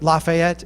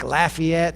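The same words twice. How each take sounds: First: The name is said in an outsider's pronunciation. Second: The name is said in the locals' pronunciation. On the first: This is not how the locals say it. "They don't say it Lafayette" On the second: This is how the locals say it. "they say it like Lafayette, something like that"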